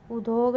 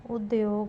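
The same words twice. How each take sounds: First: उद्योग said as u-dog, no y; wrong pronunciation. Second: उद्योग said as ud-yog; correct pronunciation. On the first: Teacher showing a spelling error, उद्योग as u-dog. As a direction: drop the y from उद्योग. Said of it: "नहीं". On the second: Teacher giving the correction, उद्योग as ud-yog. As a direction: sound the y in उद्योग. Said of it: "होगा". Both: Shown as a demonstration.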